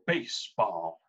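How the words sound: It is said in an imitated character's voice.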